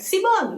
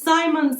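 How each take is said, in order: First: The name is pronounced the Spanish way. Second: The name is pronounced the English way. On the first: The speaker calls it wrong. "like your name in Spanish" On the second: The speaker calls it right. "And then I realized that, oh, it's Simon Says"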